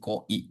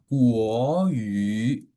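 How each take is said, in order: First: The word is squeezed into a short lazy form. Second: The word is said in full, two clear syllables. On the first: "Orang Indonesia males, jadi Koi" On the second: "jadi Kuo Yu"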